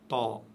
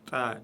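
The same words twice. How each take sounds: First: The syllable is said heavy and full. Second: The syllable is said light and thin. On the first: The speaker calls it wrong. "et non pas ta" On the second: The speaker calls it right. "ta ... prononcé légèrement"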